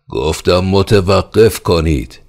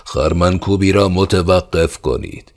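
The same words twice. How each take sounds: First: Louder, slow, high, pounding command; furious repeated order. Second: Loud, high shouted command; roaring order. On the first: Pale-faced khan repeating his order in fury. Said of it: "از زور خشم". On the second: Steward roaring to halt the threshing. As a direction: bellow the order to stop. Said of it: "نعره زد و گفت". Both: Acted.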